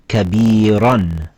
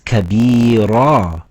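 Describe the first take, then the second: First: The word ends in an an sound. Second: The word ends in a long a vowel. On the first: The reader continues without stopping. The speaker calls it wrong. "and not kabiran" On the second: The reader is stopping on this word. The speaker calls it right. "Now we read it as kabira"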